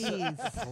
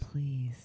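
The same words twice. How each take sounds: First: It is said in a plain, normal voice. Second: It is said in a put-on sexy voice.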